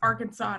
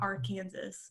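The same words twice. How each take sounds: First: The last syllable sounds like 'saw', no final s. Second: The word ends like 'Kansas', with a final s. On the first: The speaker calls it right. "It's Arkansas" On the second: The speaker calls it wrong. "not Arkansas"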